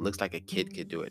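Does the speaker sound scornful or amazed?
scornful. It is said with a scornful, dismissive tone.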